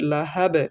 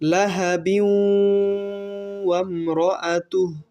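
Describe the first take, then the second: First: The voice stops at the end of the word. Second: The word runs straight into the next word. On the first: "এভাবে থামতে পারি" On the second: "মিলিয়ে পড়তে পারি"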